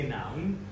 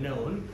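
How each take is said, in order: First: The vowel sounds like the vowel in 'now'. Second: The vowel sounds like the vowel in 'no'. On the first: The speaker calls it wrong. "you say noun" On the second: The speaker calls it right. "Known, K N O W N, known"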